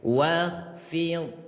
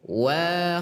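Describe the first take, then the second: First: The first vowel is kept short. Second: The first vowel is drawn out long. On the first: The speaker calls it right. "jadi tetap pendek" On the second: The speaker calls it wrong. "fathah bertemu alif berarti panjang. ... itu salah ya"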